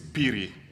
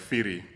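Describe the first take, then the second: First: The name begins with a P sound. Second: The name begins with an F sound. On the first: The speaker calls it right. "it's Piri" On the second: The speaker calls it wrong. "there's nothing like Firi"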